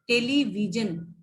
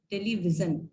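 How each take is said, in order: First: टेलीविजन with a hard j; without nukta. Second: टेलीविजन with a z sound; with nukta. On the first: Teacher shows students टेलीविजन without the nukta. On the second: Teacher shows students टेलीविजन with the nukta. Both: Shown as a demonstration. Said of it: "नुक्ता लग जाएगा".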